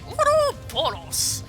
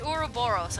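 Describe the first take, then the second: First: It is said with Japanese-style sounds. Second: It is said with plain English sounds. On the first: The speaker calls it wrong. "I don't know why I'm pronouncing that all Japanesey" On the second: The speaker calls it right. "I think I'm pronouncing that right"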